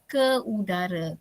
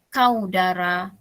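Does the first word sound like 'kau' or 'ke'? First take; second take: ke; kau. First: The first word is pronounced as ke. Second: The first word is pronounced as kau. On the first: The speaker calls it right. "bunyinya ialah ke udara" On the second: The speaker calls it wrong. "Kalau tak ada hamzah"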